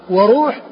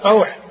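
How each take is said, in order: First: وروح said wa-ROOH, long u; وروح with rounded vowel after the r; damma on the r. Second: روح said RAWH, with aw; روح with a gliding into w; fatha on the r. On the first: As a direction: say وروح as wa-ruuh. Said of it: "بضم الر-، بضم الراء". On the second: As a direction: say روح as rawh for the open-vowel form. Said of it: "بفتح ال-، الراء وسكون الحاء". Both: Shown as a demonstration.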